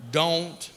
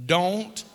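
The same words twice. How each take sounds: The two takes are said the same way.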